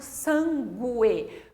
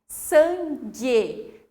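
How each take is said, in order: First: A separate u sound follows the g. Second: The g is followed directly by the e. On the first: The speaker calls it wrong. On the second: The speaker calls it right.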